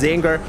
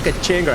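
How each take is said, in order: First: The name begins with a 'z' sound. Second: The name begins with a 'ka' sound. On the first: The speaker calls it right. "I know it's pronounced Zinger" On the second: The speaker calls it wrong. "I pronounce it Kachinger"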